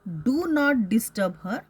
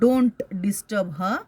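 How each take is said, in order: First: The words do and not are said separately. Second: The words are merged into one syllable, don't.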